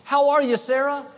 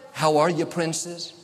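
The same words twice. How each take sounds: First: Much higher and louder, cheery; bright cheery greeting. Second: Said in the usual way. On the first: Shown as a demonstration. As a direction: greet her brightly across the room. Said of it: "every time someone said". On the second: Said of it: "they were saying".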